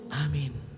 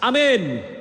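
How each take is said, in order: First: It is said at a soft volume. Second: It is said at a loud volume.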